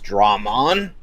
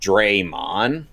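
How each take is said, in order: First: The first syllable is said like 'drah'. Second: The first syllable is said like 'dray'. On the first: This is how it has always been said. The speaker calls it right. "it's always been pronounced Dramon" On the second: This is how the dubbed game says it. The speaker calls it wrong. "this game's dub's pronunciation"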